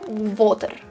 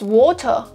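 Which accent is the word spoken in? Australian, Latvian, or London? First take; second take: Latvian; Australian. First: Spoken in a Latvian accent with a hard R. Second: Spoken in an accent that sounds Australian. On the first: "Latvian, Russian accent. Water with the hard R" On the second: "which might be Australian or not"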